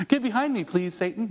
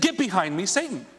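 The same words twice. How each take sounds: First: Mock-polite, pitch lifted on get; a sweet fake please to Satan. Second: Sharp, rising rebuke on Satan; angry rebuke. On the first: Shown as a demonstration. Preacher mocks polite version of the rebuke. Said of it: "No, you don't". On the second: Retold or imitated. Jesus turns on the one tempting him, angry rebuke. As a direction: snap it at the tempter. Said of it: "he literally lost it".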